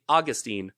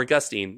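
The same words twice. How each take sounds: First: Put-on "Augustine" as AW-gus-teen, stressed on the first syllable. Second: Put-on "Augustine" as uh-GUS-teen, stressed on the second syllable. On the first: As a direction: say "Augustine" as AW-guh-steen. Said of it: "I think it's Augustine". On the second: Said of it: "No, Augustine". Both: Shown as a demonstration.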